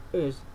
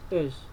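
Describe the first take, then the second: Both takes have the same delivery.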